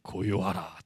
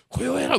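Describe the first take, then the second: First: The command is spoken in a low, commanding voice. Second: The command is shouted loudly. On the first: The speaker calls it right. "카리스마 있는 목소리" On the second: The speaker calls it wrong. "막 외치셨을까요?"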